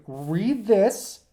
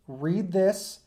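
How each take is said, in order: Both takes have the same delivery.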